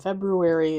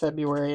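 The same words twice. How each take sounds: First: The first R sound is pronounced. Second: The first R sound is left out. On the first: The speaker calls it wrong. "is not how it's supposed to be" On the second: The speaker calls it right. "February is February"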